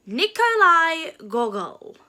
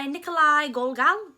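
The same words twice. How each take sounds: First: Slow, louder "Nikolai Gogol", the surname as GAW-gul; careful pronunciation attempt. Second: "Nikolai Gogol" said in passing, the surname as GOL-gal; unsure pronunciation. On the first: Vlogger retrying the playwright's name for viewers, careful pronunciation attempt. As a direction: sound out "Nikolai Gogol" deliberately, one L at the very end. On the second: Vlogger naming the playwright to viewers, unsure pronunciation. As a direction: try "Nikolai Gogol" with an L in both halves of Gogol. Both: Real, not acted. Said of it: "don't really know how to pronounce that".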